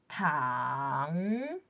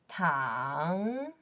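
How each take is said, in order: First: The pitch dips low and then rises. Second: The same.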